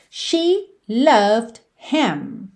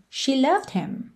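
First: "She loved him" drawn out very slowly; slow model read. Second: Said in the usual way. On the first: Shown as a demonstration. Teacher giving the sentence for students to repeat, very slow. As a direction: lay the words out slowly to be repeated. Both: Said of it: "Como você diria".

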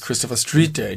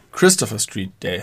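First: Street stressed, Christopher unstressed; the usual stress, Street stressed. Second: Christopher stressed, Street Day unstressed. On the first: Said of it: "und nicht". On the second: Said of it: "Die Betonung muss auf Christopher liegen". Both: Shown as a demonstration.

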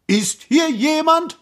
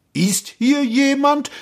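First: High-pitched searching call. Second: Slow, high searching call; repeated call. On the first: Prince calling into the empty gorge, high call. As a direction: call out for any answer. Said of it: "rief der Prinz". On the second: Prince asking the gorge a second time, slow high call. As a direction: ask it out slowly into emptiness. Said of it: "fragte er noch einmal". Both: A narrator's reading.

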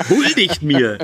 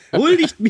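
First: Said in the usual way. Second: High, mock-regal "Huldigt mir"; mock royal command. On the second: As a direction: demand homage like a pompous king, pitched high. (hohe, gespielt königliche Stimme)

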